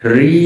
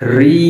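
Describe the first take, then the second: No difference in how they are said.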